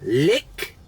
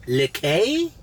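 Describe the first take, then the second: First: LICK as one syllable with a questioning rise; one-syllable reading. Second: LIQUET as lee-KAY, sharply rising at the end; two-syllable reading. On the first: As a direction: try Lick like the English word, pitch climbing. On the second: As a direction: try Liquet with a final AY sound, as a question. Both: Shown as a demonstration. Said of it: "How would you pronounce L I Q U E".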